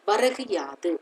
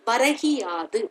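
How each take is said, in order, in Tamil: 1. இரண்டு சொற்களும் பிரிந்தே நிற்கின்றன, 'u' ஒலியில் முடிகின்றன. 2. சொற்கள் சேர்ந்துவிடுகின்றன, 'u' 'i' ஆகிறது. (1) "வரகு பிளஸ் யாது" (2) "வரகியாது என்று நம்ம சொல்லுவோம்"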